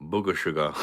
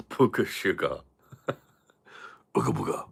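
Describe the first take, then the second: First: Said in the usual way. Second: "Booger sugar" said through a laugh; laughing repeat. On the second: Real, not acted. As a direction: chuckle as you say "Booger sugar". Repeats phrase while laughing.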